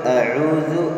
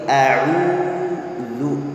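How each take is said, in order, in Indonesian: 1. Vokal akhir diucapkan tanpa pembulatan bibir. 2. Vokal akhir diucapkan dengan bibir membulat. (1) "bukan a'udzu a'udzu" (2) "tapi a'udzu ya"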